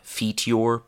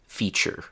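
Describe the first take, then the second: First: The middle consonant is a plain t sound. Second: The middle consonant is a ch sound. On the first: The speaker calls it wrong. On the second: The speaker calls it right.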